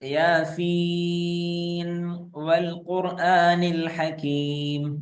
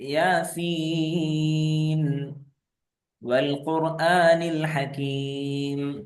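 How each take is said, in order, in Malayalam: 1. ആദ്യ വാക്ക് അടുത്ത വാക്കിലേക്ക് നേരിട്ട് ചേർന്നൊഴുകുന്നു. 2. ആദ്യ വാക്കിന് ശേഷം ഒരു നിർത്തലുണ്ട്. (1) "ഞാൻ അവിടെ വഖഫ് ചെയ്യാതെയാണ് ഓതിയത്" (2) "ഇനി വഖഫ് ചെയ്ത് ഓതുമ്പോഴോ"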